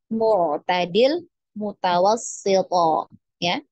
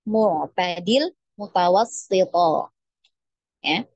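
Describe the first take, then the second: The two takes are said the same way.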